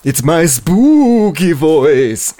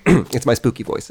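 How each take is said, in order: First: Very slow, swooping ghoul put-on; spooky voice. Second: Said in the usual way. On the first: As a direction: stretch SPOOKY long and eerie, like a hammy ghost. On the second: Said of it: "why are you talking like that".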